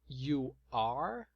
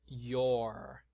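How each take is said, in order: First: Two separate words, each fully pronounced. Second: Words merged into one short syllable. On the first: "na forma extensa" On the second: "Na forma contraída"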